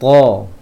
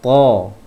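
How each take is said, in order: The two takes are said the same way.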